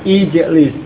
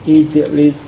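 No difference in how they are said.

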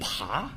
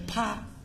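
First: The syllable does not have a high level tone. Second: The syllable has a high level tone. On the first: The speaker calls it right. "这个字普通话的读音念爬" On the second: The speaker calls it wrong. "你念的是第一声啪，错了"

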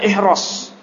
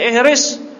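First: The second syllable has an 'a' vowel. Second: The second syllable has an 'i' vowel. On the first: "boleh dibaca fathah ihros" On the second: "boleh baca ihris fil amr"

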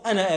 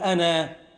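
First: The final vowel is pronounced short. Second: The final vowel is pronounced long. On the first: The word runs on into the following words. "عند الوصل أنا آتيك به من غير ألف" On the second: The word ends an utterance at a pause. "إذا وقفت تقول أنا"

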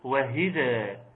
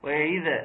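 First: An h sound follows the first syllable. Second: An ayn sound follows the first syllable. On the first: "بالهاء" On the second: "أو حركة عين كده"

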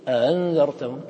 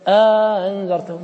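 First: No long vowel separates the two glottal stops. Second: A long vowel separates the two glottal stops. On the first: "إذا قرأت لي ورش ماذا تقول؟ تقول أنذرتهم" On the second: "إذا قرأت لي قالون قلت أنذرتهم. هذا المد يسمى بألف الإدخال"

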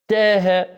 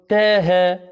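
No difference in how they are said.

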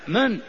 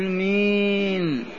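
First: The vowel is short and the word sounds harsh. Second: The vowel is drawn out and leaning toward 'ee'. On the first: The speaker calls it right. "قاسية هكذا" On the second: The speaker calls it wrong. "لا تقل مين، هذه الإمالة لا وجود لها في لسان العرب"

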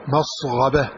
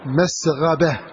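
First: The s sound is emphatic and heavy. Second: The s sound is plain and light.

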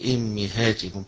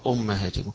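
First: The word begins with the vowel i. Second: The word begins with the vowel u. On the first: "وقراءة حمزة وصلا" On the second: "فالجميع يقرأ أمهاتكم بالضم فيها"

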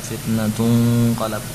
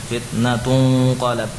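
Both takes have the same delivery.

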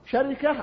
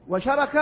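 First: It follows the pattern of namira: sharika. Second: It follows the pattern of arafa: sharaka. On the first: "شركة على وزن نمرة" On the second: "وشركة على وزن عرفة"

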